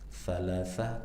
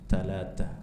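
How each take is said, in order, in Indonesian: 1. Kata ini diawali dengan bunyi th yang lembut. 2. Kata ini diawali dengan bunyi t yang keras.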